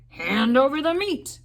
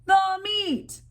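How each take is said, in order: First: Pirate demand. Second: Very high, loud chorus; rowdy crew demanding meat; crew roar. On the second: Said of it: "we all roared". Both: A narrator's reading.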